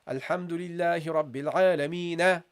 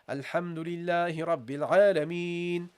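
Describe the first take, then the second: First: The last word ends with an added na. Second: The last word ends on the consonant n. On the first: The speaker calls it wrong. "You don't say na at the end" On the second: The speaker calls it right. "You say"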